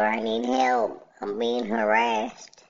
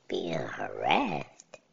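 First: Higher, slower whiny mock victim; mock plea for help. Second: Slow, whispered disbelief; incredulous whisper. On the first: She tells the officers next door, mock pleading. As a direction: play the pleading victim, a bit hammed-up. Caller quoted asking police. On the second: Real, not acted. Repeating her claim to himself, whispered disbelief. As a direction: breathe it out like you can't believe it.

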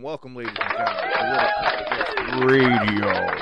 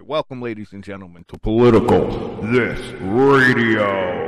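First: A first try at the big show opener; casual radio announcer greeting; radio host intro. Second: Booming, drawn-out radio host welcome; slow, louder announcer welcome with a reverb-like sound. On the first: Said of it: "Wait, hold on, let me do it the right way". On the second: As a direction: open the show like a big-time DJ. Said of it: "let me do it the right way". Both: Shown as a demonstration.

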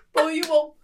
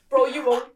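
First: Loud, higher American bro dare, falling on "won't"; mock American bro repeating the dare; bombastic American. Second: Loud American bro dare on "Bro"; hammed-up American bro dare; bombastic American. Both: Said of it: "more bombastic when I'm American".

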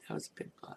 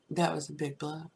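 First: Breathless whispered echo of the line; whispered aside to herself after a plain first take; whispered repeat. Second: Said in the usual way. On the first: Real, not acted. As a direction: repeat it to yourself under your breath, unvoiced.

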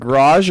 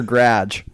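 First: "garage" as GRAHZH, broad ah; variant pronunciation. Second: "garage" as GRADGE; variant pronunciation. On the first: Asking friends which is right, "garage" as grahzh. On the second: Asking friends which is right, "garage" as gradge. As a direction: say "garage" to rhyme with badge. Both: Shown as a demonstration. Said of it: "is it garage or garage?".

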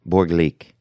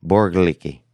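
First: Borglik said as BOR-glik, two syllables, ending on a hard k; Borglik, short, with no ending vowel; first try at the name. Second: Borglicki said as bor-GLIH-kee, three syllables, ending in ee; Borglicki, the longer form with a final ee; second try at the name. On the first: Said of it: "I wanna say Borglik". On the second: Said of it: "I wanna say Borglik, Borglicki". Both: Shown as a demonstration.

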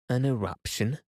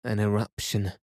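First: Shocked question, pitched up; gasped. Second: Said in the usual way. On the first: A narrator's reading. Nephew echoing his uncle's news, gasped. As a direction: echo it in disbelief, rising high at the end. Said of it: "I gasped".

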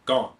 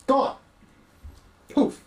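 First: Said in the usual way. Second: Higher, stunned repeat of Gone; disbelieving echo. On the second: Acted. Echoing the word in disbelief.

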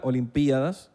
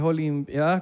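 First: Olimpiadas stressed on PI; hiato, forma esdrújula. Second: Olimpiadas stressed on the A; diptongo, forma llana. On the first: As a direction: split the vowels, o-lim-PI-a-das, in Olimpiadas. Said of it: "y la esdrújula". (Olimpiadas con hiato, acento en PI) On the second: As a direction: read out Olimpiadas with "pia" as one syllable. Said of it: "Olimpiadas con diptongo". (Olimpiadas con diptongo, acento en la A) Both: Shown as a demonstration.

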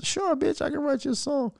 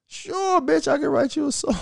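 First: High, soft mock-flirty voice as Tory. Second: Very high mock-flirty croon; flirty Tory, higher.

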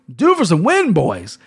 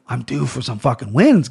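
First: Playful higher retake. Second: Said in the usual way. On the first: Real, not acted. Host repeats his line to the boys, higher and playful. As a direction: lift it up playfully.

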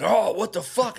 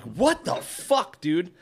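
First: High mocking echo of a drunk; wasted guy. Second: High, drawn-out retold outrage; pissed off. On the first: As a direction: mimic the drunk's dopey protest. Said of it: "he's wasted". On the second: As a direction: re-enact an exasperated protest, slowly. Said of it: "I'm, like, pissed".

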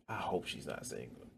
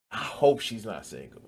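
First: Muttered aside. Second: Said in the usual way. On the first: Pretend. Taunt repeated, much softer.

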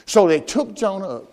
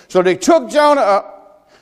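First: Said in the usual way. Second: So they took Jonah up drawn out slow and weighty; preached slow, each word weighted; slow emphasis. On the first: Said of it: "type of the crucifixion". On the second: Shown as a demonstration. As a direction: lean on took, slowly. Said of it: "cast him forth into the sea".

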